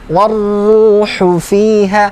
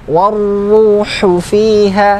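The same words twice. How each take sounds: No difference in how they are said.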